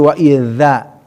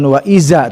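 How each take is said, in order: First: The consonant is a th sound, tongue between teeth. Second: The consonant is a plain buzzing z. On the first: The speaker calls it right. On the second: The speaker calls it wrong.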